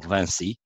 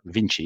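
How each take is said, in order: First: The name has a French pronunciation. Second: The name has an English pronunciation.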